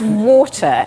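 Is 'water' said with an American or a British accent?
British. Water is said with a British accent. The mother corrects the child to her own accent. "And I went"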